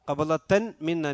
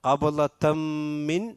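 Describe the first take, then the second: First: The n is pronounced clearly before the m. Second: The n merges into the following m. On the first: The speaker calls it wrong. "അല്ല" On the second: The speaker calls it right. "അതിലേക്ക് ഇദ്ഗാം ചെയ്യണം"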